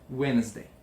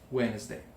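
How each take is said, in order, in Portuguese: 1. O D do meio é mudo. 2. O D do meio é mudo.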